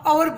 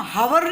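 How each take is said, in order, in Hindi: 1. शब्द की शुरुआत स्वर ध्वनि से होती है। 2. शब्द की शुरुआत h ध्वनि से होती है। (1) "हम अवर बोलेंगे" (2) "हम हवर नहीं बोलेंगे"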